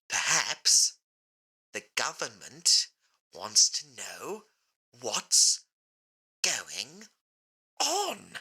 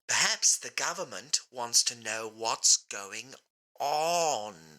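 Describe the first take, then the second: First: It is said very slowly. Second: It is said slowly.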